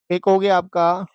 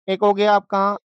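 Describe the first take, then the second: No difference in how they are said.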